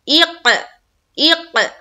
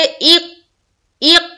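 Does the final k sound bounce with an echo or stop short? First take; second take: bounce; stop. First: The final k bounces with an echoing release. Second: The final k stops short without any echo. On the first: The speaker calls it right. "आवाज को टकराना, echo sound निकालना" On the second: The speaker calls it wrong. "तो कलकला नहीं हो रहा है"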